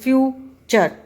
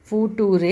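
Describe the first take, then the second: First: The middle consonant is a ch sound. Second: The middle consonant is a plain t sound. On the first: The speaker calls it right. "It is फ्यूचर। च की आवाज इसके अंदर आने लग गई है।" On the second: The speaker calls it wrong. "This is not फूटूरे"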